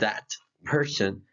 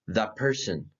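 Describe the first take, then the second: First: The T at the end of 'that' is pronounced. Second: The T at the end of 'that' is dropped. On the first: "instead of saying" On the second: "forgetting about the T at the end of that"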